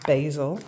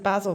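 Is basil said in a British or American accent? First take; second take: American; British. First: Basil is said in an American accent. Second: Basil is said in a British accent.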